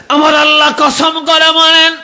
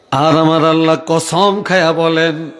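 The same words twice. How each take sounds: First: Very high sustained proclamation; impassioned preaching cry. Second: Said in the usual way. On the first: Real, not acted. Preacher proclaiming God's oath to the congregation, high cry.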